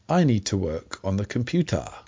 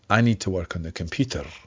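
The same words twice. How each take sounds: First: Computer ends in a vowel with no r. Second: Computer ends with a rolled r sound. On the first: "someone in London might say, ... with "a" at the end" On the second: "someone in Edinburgh would say, ... and roll the R at the end of the word"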